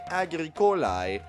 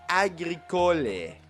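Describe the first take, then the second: First: It is said with the classical Latin ending. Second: It is said with the church Latin ending. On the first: "instead of saying agricolae" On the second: "they say agricole"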